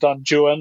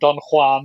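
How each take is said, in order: First: Juan is said in the poet's own way. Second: Juan is said in the other, usual way. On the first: This is how the poet himself said the name. The speaker calls it right. "you have to say it that way for the rhymes to work" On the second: This is not how the poet said the name. The speaker calls it wrong. "not Don Juan"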